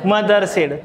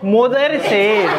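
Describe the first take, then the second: First: The first vowel of mother sounds like 'uh'. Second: The first vowel of mother sounds like 'oh'. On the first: "मग खाली होतं काय" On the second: "तो म्हणतो मोदर said"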